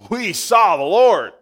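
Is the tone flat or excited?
excited. It is said in an excited way.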